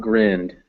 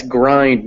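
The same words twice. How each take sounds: First: "grind" said as "grinned", short vowel. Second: "grind" with an "eye" vowel, rhyming with find; long I. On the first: Teacher shows student the wrong reading, "grind" with short I. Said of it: "Yeah, it's grind". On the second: Teacher confirms student's reading, "grind" with long I. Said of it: "not grind". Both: Shown as a demonstration.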